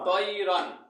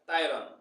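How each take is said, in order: First: The first syllable has an 'oi' vowel, like 'toy'. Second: The first syllable has an 'ai' vowel, like 'tie'. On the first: The speaker calls it right. "কি হলো উচ্চারণ?" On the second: The speaker calls it wrong. "ইনি পড়ে কি তাই"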